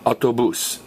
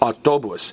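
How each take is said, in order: First: The stress is on the last syllable. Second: The stress is on the second-to-last syllable. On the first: The speaker calls it right. "notice the accent mark" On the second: The speaker calls it wrong. "we'd stress the next to less vowel, and we'd say autobus"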